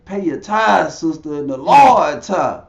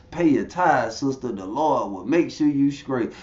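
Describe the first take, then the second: First: Loud mock pastor, punching TITHES and LORD; raised, preachy insistence; insistent preacher. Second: Said in the usual way. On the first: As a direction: imitate a pastor pressing harder for money. Pastor insists over her objection.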